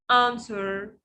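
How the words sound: The vowel is a broad British 'ah'.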